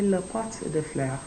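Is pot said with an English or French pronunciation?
English. Pot is said with an English pronunciation. The speaker calls it wrong. "So don't say le pot de fleurs"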